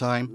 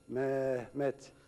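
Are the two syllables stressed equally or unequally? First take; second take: equally; unequally. First: Both syllables get equal stress and length. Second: One syllable is stressed more than the other. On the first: The speaker calls it right. "aynı vurguyla" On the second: The speaker calls it wrong. "Şu yanlışı yapmayacağız"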